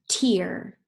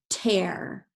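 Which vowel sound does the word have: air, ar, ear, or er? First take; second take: ear; air. First: The vowel sounds like ear. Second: The vowel sounds like air. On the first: A drop from the eye. "let's try it with ear" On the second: To rip something. "let's use it with air"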